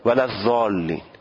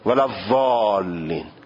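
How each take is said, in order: First: The ض is made with the tongue tip. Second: The ض is made with the tongue side, prolonged. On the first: The speaker calls it wrong. "از نوک زبان میگن" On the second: The speaker calls it right. "حاشیه زبانو به بین دندانهای آسیا میچسبانند و حالت استطاله داره"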